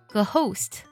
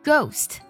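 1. g 后面有一个 h 音。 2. g 后面没有 h 音。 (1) "而不是ghost，不是这样去读的" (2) "h 不发音哦，我们要把它读作ghost"

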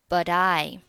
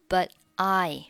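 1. 末尾的 t 与下一个词顺畅地连读。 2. 末尾的 t 在下一个词前不发音。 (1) "可以选择连读成but I" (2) "but 末尾不发音变成了"

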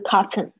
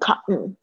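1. 中间的 t 清楚地释放出来，能听到。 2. 中间的 t 被吞掉了，听不到。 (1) "而不是cotton" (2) "它会变音成没有声音"

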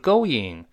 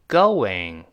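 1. 在元音之间不带类似w的滑音。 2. 在元音之间带有类似w的滑音。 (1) "不是going" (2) "是going"

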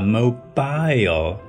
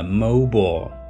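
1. 第二个音节保留完整的元音。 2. 第二个音节的元音被省略了。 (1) "这是老师教给我们的标准读法" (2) "i 这个字母的音呢就被吃掉了"

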